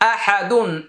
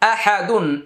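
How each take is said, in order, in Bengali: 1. শব্দটি একটি পূর্ণ নাসিক 'dun' দিয়ে শেষ হয়। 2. শব্দটি একটি পূর্ণ নাসিক 'dun' দিয়ে শেষ হয়।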